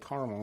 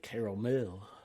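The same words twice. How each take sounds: First: It is said the Midwestern American way. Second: It is said in a French-style way. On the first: This is how ordinary American speakers say it. "people from the Midwest and like the U S say caramel" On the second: This is how fancy foreign speakers say it. "them fancy countries like France they say caramel"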